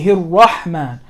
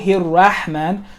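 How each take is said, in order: First: The R is pronounced thick and heavy. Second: The R is pronounced thin and light. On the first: The speaker calls it right. "we say ... So the Ra is thick" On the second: The speaker calls it wrong. "We don't say"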